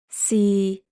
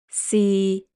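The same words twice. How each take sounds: First: The syllable is said in Cantonese tone six. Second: The syllable is said in Cantonese tone six.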